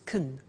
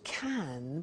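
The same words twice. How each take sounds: First: The word is said with a weak, reduced vowel. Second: The word is said with its full vowel.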